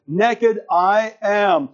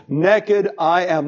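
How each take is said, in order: First: Naked hit higher and hard, slowly; naked drawn out, emphatic; stress on naked. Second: Naked hit first and hard, slowly; naked said with weight; stress on naked. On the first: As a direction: drive naked home, slow and firm. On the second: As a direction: lean into naked, slow fall. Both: Shown as a demonstration. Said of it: "Not I was naked".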